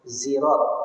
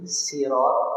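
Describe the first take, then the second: First: The word begins with a z sound. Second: The word begins with a plain, light s. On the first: "dengan zaid" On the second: "dengan sin"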